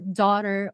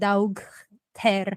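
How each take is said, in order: First: The word is said with a silent gh. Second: The word is said with a hard g sound. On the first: Listeners will understand the word. The speaker calls it right. "you can say it like daughter" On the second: Listeners will not understand the word. The speaker calls it wrong. "you pronounce it like daug ter, like nobody's gonna understand you"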